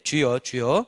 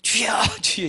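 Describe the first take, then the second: First: It is said in a calm, unbothered tone. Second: It is said in a desperate, pleading tone.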